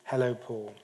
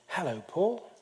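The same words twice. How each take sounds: First: It is said in a neutral tone. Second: It is said in a friendly, welcoming tone.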